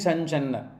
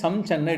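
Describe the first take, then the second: First: The nasal before 'channa' sounds like 'n'. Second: The nasal before 'channa' sounds like 'm'. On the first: It follows the flow of recitation. "but when you pronounce it" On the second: It follows the written form. "it is written as Samchanna"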